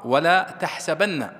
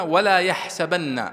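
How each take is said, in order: First: تحسبن بالتاء: تَحْسَبَنَّ، بطيئة وعالية; اضغط تاء تحسبن ببطء وبصوت أعلى; قراءة بالتاء. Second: يحسبن بالياء: يَحْسَبَنَّ، بطيئة وعالية; مدّ ولا يحسبن بالياء ببطء وبصوت أعلى; قراءة بالياء. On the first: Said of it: "في قراءة أخرى". (ولا تَحْسَبَنَّ بالتاء، ببطء وبصوت مرتفع) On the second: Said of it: "هذه قراءة". (ولا يَحْسَبَنَّ بالياء، ببطء وبصوت مرتفع) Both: Shown as a demonstration.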